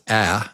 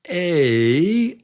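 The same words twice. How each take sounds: First: The vowel is a short 'ah' sound. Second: The vowel is a long 'ay' sound. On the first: "the short vowel is A, like in apple" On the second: "the long vowel is A, like in cake"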